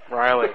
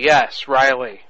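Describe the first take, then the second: First: Riley sung out much higher; a high, teasing call of the name; high mock name. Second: Said in the usual way. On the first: Real, not acted. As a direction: toss the name up high, playfully. Playful repeat of the name.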